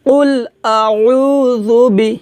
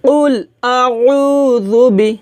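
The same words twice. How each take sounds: No difference in how they are said.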